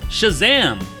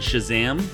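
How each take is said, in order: First: It is said loudly, with excitement. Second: It is said flatly, without excitement.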